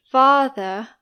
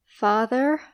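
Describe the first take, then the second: First: FATHER said British, with no R at the end; British non-rhotic R. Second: FATHER ending in a curled American R; American rhotic R. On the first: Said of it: "in British English we say". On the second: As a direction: sound the final R of father, American style. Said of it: "in American English the R is". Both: Shown as a demonstration.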